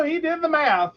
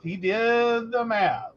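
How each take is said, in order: First: Said in the usual way. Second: Slow, with "did" leaned on; slow emphatic repeat. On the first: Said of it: "repeats line". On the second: Shown as a demonstration. Backing up her husband to listeners, slow emphatic repeat. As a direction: spell out that he really did it. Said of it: "repeated line".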